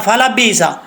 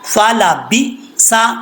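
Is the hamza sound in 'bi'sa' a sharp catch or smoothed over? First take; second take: smoothed over; sharp catch. First: The syllables glide together without a glottal catch. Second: A sharp glottal catch is heard before 'sa'. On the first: The speaker calls it wrong. "तो ये गलत हो जाएगा, झटका दिया नहीं जा रहा" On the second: The speaker calls it right. "इस तरीके से पढ़ना है। बी सा, ये झटका आ रहा है।"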